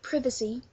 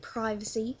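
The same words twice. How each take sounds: First: It is said with a British pronunciation. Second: It is said with an American pronunciation. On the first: "we say privacy" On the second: "Americans say privacy"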